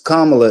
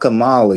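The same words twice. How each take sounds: First: The name is said to rhyme with Pamela. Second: The name is said not rhyming with Pamela. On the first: The speaker calls it right. "It's Kamala. ... just like Pamela is Kamala" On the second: The speaker calls it wrong. "It's not Kamala"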